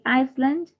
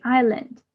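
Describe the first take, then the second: First: "Iceland" with the S sounded; S pronounced. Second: "island" said as eye-lund, no s sound; silent S. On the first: Teacher contrasting island and Iceland for learners, S pronounced. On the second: Teacher showing learners how island is said, silent S. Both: Shown as a demonstration. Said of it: "we don't pronounce the letter S".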